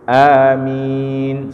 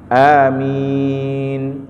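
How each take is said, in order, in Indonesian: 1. Vokal kedua ditahan selama dua harakat. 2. Vokal kedua ditahan selama empat harakat. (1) "sama dua harakat" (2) "empat harakat minnya"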